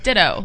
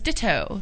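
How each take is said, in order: First: The T sounds are softened, not fully pronounced. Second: The T sounds are fully and crisply pronounced.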